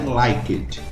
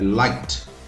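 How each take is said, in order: First: The ending is an extra syllable after 'like'. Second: The ending is a plain T sound, one syllable. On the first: The speaker calls it wrong. "não é" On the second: The speaker calls it right. "a pronúncia do verbo like no passado é com som de T"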